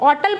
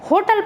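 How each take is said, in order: First: The word starts without an h sound. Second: The word starts with an h sound. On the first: This is how it is said outside India. "यहाँ पे एच की sound भी silent है" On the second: This is how it is said in India. "अगर हम India में use कर रहे हैं तो हम इसे होटल पढ़ेंगे"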